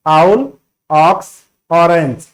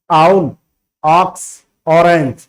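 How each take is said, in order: Both takes have the same delivery.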